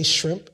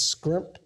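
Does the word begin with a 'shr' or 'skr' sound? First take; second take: shr; skr. First: The word begins with a shr sound. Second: The word begins with a skr sound. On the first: "They don't say shrimp" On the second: "it's scrimp"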